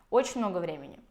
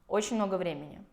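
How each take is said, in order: The two takes are said the same way.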